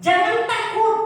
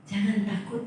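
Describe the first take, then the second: First: "Jangan takut" cried out much higher and louder; preached shout. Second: "Jangan takut" repeated softer, gently rising; soft echo. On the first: Preacher cries "Jangan takut" to the congregation, high and loud. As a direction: proclaim "Jangan takut" at the peak. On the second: Preacher softly repeats "Jangan takut" to comfort the church. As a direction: let "Jangan takut" fall back to a gentle reassurance. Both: Real, not acted.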